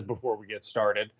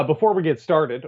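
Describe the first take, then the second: First: Lightly imitating Armando's lead-in; mock Armando. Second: Said in the usual way. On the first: Co-host teasing Armando by imitating his opener, lightly mocking. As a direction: lower and softer, a light take on the host's catchphrase. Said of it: "or I guess before Armando says". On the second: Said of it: "before Armando says".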